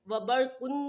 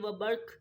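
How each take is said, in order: First: The word ends with a vowel and n. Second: The word ends on a bare q sound. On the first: The speaker calls it wrong. "हम वबरकुन नहीं पढ़ेंगे" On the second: The speaker calls it right. "बल्कि वबर्क पढ़ के"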